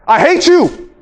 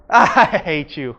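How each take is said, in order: First: Shouted I hate you, loud and high; angry shout. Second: I hate you, low and drawn out; low and slow. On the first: Demo to the class, shouted in anger. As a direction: yell it at them in fury. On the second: Demo to the class, same words slow and low. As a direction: say it slow, almost joking. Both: Shown as a demonstration. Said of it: "your words do not really matter".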